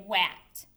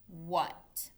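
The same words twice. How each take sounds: First: "wat" with the vowel of "cat"; literal short A. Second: Said in the usual way. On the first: Shown as a demonstration. Teacher shows the misreading, "wat" with a flat short-A vowel. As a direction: sound out "wat" to rhyme with "cat". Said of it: "we don't say wat". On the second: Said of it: "we hear the uh sound".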